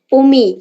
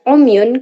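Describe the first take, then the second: First: The word ends on a stopped y sound. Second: The word ends with an -un sound. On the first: The reading stops at this word. "ketika wakof dibaca umi" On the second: The reading continues into the next word. "ketika wasol dibaca umyun"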